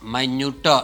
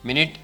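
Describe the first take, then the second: First: The word sounds like 'my-newt', with a long vowel. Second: The word sounds like 'min-it', with a short vowel. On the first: It means very small or subtle. "આને તમે માઇન્યુટ બોલો માઇન્યુટ એટલે સૂક્ષ્મ થાય" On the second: It means sixty seconds. "તમે મિનિટ બોલો મિનિટ તો એનો મિનિંગ થાય સિક્સટી સેકન્ડ"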